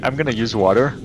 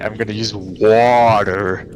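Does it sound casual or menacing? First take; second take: casual; menacing. First: It is said in a casual, harmless tone. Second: It is said in a dark, menacing tone.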